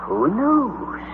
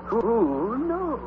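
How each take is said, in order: First: Softer musing to himself. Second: Much softer, trailing off; softer musing echo. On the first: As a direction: wonder aloud quietly. Uncle musing. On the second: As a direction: let it fade away. Repeated musing. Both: Acted.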